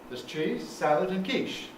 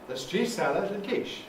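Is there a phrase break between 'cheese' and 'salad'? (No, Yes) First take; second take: Yes; No. First: Cheese and salad fall in separate phrases. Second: Cheese and salad run together in one phrase. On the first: Three separate foods: cheese, salad and quiche. "The first one" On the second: Two foods: cheese salad, and quiche. "The second one"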